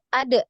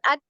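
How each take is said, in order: First: The final d is released with a bounce. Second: The final d stops flat without a bounce. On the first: The speaker calls it right. "Bacanya seperti itu" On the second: The speaker calls it wrong. "bukan ad ya"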